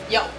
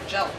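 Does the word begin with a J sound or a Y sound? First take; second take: Y sound; J sound. First: The word begins with a Y sound. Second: The word begins with a J sound. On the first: This is the proper form of the word. The speaker calls it right. "It's Yelp" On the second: Someone else says it this mistaken way. The speaker calls it wrong. "he can't say Yelp. He'll say Jelp"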